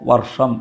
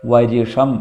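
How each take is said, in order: First: The r joins sh directly with no vowel. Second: An 'i' vowel is inserted between r and sh. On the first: "വർഷം എന്ന് തന്നെ വായിച്ചാൽ മതി" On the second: "ഋ എന്ന് വായിച്ചാൽ ... വരിഷം"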